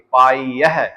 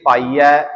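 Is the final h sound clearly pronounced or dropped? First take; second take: pronounced; dropped. First: The final h is sounded clearly and forcefully. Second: The final h is dropped, ending in ai. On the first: The speaker calls it right. "ਹਾਹੇ ਦੀ ਆਵਾਜ਼ ਕੱਢਣੀ ਹੈ ਜ਼ੋਰ ਲਾ ਕੇ" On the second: The speaker calls it wrong. "ਇਸ ਲਈ ਪਾਈ ਹੈ ਨਹੀਂ ਬੋਲਣਾ"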